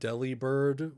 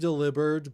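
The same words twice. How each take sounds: First: The name starts like 'deli', as in deli meat. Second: The name sounds like the word 'delivered'. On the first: The name refers to a deli with fresh meat. "I've always said Delibird, ... deli like fresh meat bird" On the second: The name puns on delivering things. "It might be Delibird because like delivered"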